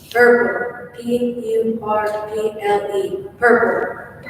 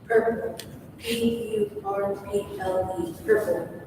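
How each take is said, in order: First: It is said at a loud volume. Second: It is said at a softer volume.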